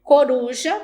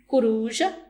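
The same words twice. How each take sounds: First: "Coruja" with a clear o, co-ru-ja, loud; standard coruja. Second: "coruja" said as curuja, o raised to u. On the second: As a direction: show the casual "coruja" as curuja. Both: Shown as a demonstration. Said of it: "standard vs casual".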